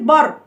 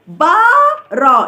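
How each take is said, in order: First: The first vowel is short. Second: The first vowel is drawn out long.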